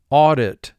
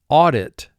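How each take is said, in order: Both takes have the same delivery.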